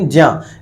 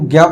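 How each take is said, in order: First: The syllable begins with a j sound. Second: The syllable begins with a g sound. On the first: The speaker calls it right. "ज्ञ मतलब गा नहीं होता है, ज्य मतलब ज्य ज यानी जा होगा" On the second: The speaker calls it wrong. "हम बचपन से ही ज्ञा पढ़ते आते हैं"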